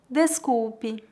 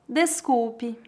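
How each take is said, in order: The two takes are said the same way.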